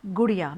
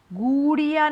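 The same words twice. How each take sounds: First: Said in the usual way. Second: गुड़िया with long, stretched, higher oo and ee, like "gooo-deee-ya"; drawn-out vowels. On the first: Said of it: "आप कैसे बोलोगे?". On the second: Shown as a demonstration. Teacher shows pupils the wrong word, vowels dragged out. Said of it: "गुड़िया नहीं होता".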